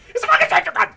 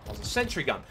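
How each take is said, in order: First: Very high, very loud screech; outraged scream. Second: Slightly loud, higher-pitched disbelief; incredulous. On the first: Player killed by a sentry gun, outraged high scream. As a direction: scream it at the top of your range. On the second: Player noticing a sentry gun, incredulous but controlled. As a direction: state it in raised, still controlled disbelief. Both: Real, not acted.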